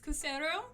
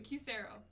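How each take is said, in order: First: The first syllable is not said like letter Q. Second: The first syllable is said like letter Q. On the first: The speaker calls it wrong. "You're very close" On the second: The speaker calls it right. "pronounced like the letter Q"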